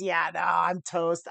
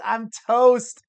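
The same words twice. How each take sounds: First: Said in the usual way. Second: I'm toast said louder and higher in defeat; louder resigned repeat. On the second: Real, not acted. Poker streamer admitting a lost hand, louder resigned exclamation. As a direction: repeat it louder, a groan of giving up.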